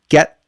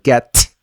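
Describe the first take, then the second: First: The final T is stopped, not released. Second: The final T is fully released. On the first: "which is the stop T" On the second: "instead of saying get"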